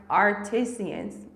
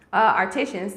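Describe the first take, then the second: First: "artisans" dragged out slowly as "AR-ti-see-ans"; stumbled word. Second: "artisans" fixed as "AR-ti-shuns"; corrected word. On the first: Reading live to viewers, mangling "artisans" slowly. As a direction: fumble "artisans" slowly with an extra syllable. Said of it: "I can't say that right now". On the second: After apologising to viewers, she fixes "artisans" as "AR-ti-shuns". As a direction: say "artisans" properly with the sh sound. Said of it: "sorry, um". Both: Real, not acted.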